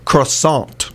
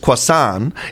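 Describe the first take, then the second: First: The word is said with an English pronunciation. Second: The word is said with a French pronunciation. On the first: "In English, yeah. It's pronounced croissant" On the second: "In French, it's croissant"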